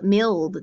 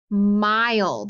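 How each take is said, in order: First: The vowel is short, like in 'mill'. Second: The vowel is long, like in 'mile'. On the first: The speaker calls it wrong. "Does that sound right? No" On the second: The speaker calls it right. "if I tried it with the long"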